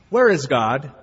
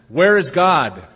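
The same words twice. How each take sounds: First: It is asked gently and plainly. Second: It is asked in a firmer tone.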